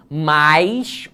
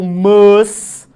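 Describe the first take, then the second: First: "mais" said with a clear i glide, rising. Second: "mas" short, loud and high, no i glide; mas without i. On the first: Teacher contrasting mais and mas for students. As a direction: say "mais" with the i sounded. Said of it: "distinguir o mais com I". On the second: Teacher shows the other word, loudly, to students. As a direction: snap out "mas" plainly without the i. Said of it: "fala assim". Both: Shown as a demonstration.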